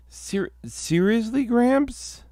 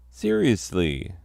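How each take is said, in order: First: High, disbelieving seriously; incredulous. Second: Said in the usual way. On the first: Acted. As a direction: squeak it out in disbelief. Incredulous at Gramps.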